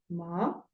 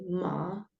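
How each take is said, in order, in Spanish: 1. El tono sube de bajo a alto. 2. El tono baja y luego vuelve a subir. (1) "tono ascendente ... sube" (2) "tono descendente ascendente ... Baja y sube"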